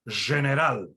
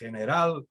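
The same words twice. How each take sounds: First: It uses the Judeo-Spanish pronunciation. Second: It uses the modern Spanish pronunciation. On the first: "in Judeo-Spanish, you would say" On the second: "in modern Spanish, you would say"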